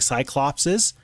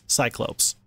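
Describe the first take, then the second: First: It has an extra 's' before the final syllable. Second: It has no 's' before the final syllable. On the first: The speaker calls it wrong. "I keep saying Cyclopses, ... that's not correct" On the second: The speaker calls it right. "It's Cyclopes"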